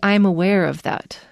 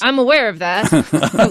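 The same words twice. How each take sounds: First: It is said in a soft, apologetic tone. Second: It is said in a blunt, unapologetic tone. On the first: The speaker regrets the situation. "it's a little bit apologetic" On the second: The speaker does not want to hear more. "which is not apologetic"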